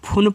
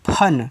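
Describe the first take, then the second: First: The vowel is a short 'oo' sound. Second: The vowel is a short 'uh' sound. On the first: The speaker calls it wrong. "F यू N को फुन पढ़ देंगे। भैया ये आपका गलत तरीका है" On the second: The speaker calls it right. "F यू N इसको पढ़ते हैं फन"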